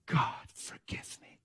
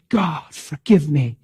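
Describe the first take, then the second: First: Slow, breathless whisper; whispered prayer. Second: Said in the usual way. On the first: Retold or imitated. Girl praying for forgiveness in a slow whisper. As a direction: whisper it like a broken confession.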